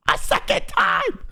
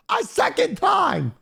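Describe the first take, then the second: First: High, slow yell, still exasperated; outraged yell again. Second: High, slow, exasperated yell; outraged yell. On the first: Repeating the second cancellation to friends, exasperated yell. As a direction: repeat it in disbelief. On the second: Telling friends about the cancelled appointment, outraged yell. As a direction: stretch it out, disbelieving. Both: Retold or imitated.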